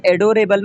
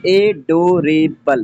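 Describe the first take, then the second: First: Said in the usual way. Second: adorable slowly split into four separate syllables, ए-डो-रे-बल. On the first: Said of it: "में four syllable है". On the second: Shown as a demonstration. Teacher counting four syllables for students, adorable said slowly syllable by syllable. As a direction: break adorable into ए, डो, रे, बल with gaps. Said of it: "four syllable है".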